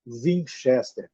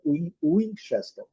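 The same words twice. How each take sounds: First: WINCHESTER starting with a V sound. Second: WINCHESTER starting with an English W, an "oo" glide. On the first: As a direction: say "Winchester" slowly, as if spelt with V. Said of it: "adaptam como V". ("Winchester" com W com som de V) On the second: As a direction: round into "Winchester" with a U sound. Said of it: "com W é U". ("Winchester" com W com som de U) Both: Shown as a demonstration.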